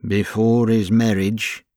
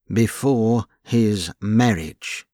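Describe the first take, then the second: First: Before lifted, rising at the end; a questioning rise on Before his marriage; musing remark. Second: Before his marriage drawn out, falling at the end; slow echo. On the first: James raising the wedding, rising tone. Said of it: "remarked James". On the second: Albert echoing James, slow and falling. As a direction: echo it slowly and let it fall. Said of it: "echoed Albert". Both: Acted.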